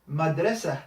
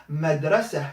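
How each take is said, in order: Both takes have the same delivery.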